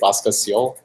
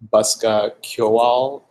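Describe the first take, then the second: First: The name ends with a 'seal' sound. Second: The name ends with a 'kyoal' sound. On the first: This is the habitual casual pronunciation. "which is what I usually say" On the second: This is the official pronunciation. "which is how it's supposed to be pronounced"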